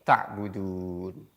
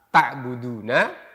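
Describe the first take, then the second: First: The final vowel is dropped. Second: The final vowel is pronounced. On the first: The reading stops here. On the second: The reading continues without stopping.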